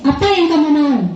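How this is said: It is said in a punishing, scolding tone. The adult acts as a punisher. "Itu ke penghukum"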